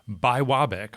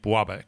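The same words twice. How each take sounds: First: The word is said slowly with every syllable clear. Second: The word is said quickly with syllables run together. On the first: "actually pronounced" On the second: "when people start saying it quickly"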